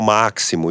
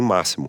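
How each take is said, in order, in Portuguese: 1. A consoante do meio é pronunciada como ks. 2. A consoante do meio é pronunciada como s. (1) "Não é o máximo" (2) "e sim máximo"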